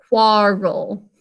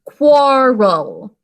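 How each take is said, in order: First: Said in the usual way. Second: Quarrel stretched out slowly and loudly, each sound clear; slower. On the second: Shown as a demonstration. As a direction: spell it out slowly, syllable by syllable. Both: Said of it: "going a little slower".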